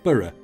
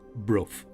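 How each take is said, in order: First: The name is said like 'borough'. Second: The name is said like 'brough'. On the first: This is how someone from Yorkshire would say it. The speaker calls it wrong. "being a Yorkshire lad, I would have pronounced it Borough by Sands" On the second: This is the accepted local way to say it. The speaker calls it right. "I've been reliably informed that it is pronounced Brough"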